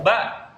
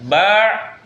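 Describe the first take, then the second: First: The vowel is cut off with a clean stop. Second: The vowel ends in a throaty, ain-like sound. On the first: The speaker calls it right. "kalau hamzah dalam kondisi sukun suaranya harus berhenti" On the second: The speaker calls it wrong. "jangan ba, salah. Kalau ba nanti masuknya ke ain"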